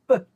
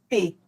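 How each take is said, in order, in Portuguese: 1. A consoante é uma explosão curta, sem vogal. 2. A consoante é seguida por uma vogal. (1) "ele faz P" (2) "o P não faz P"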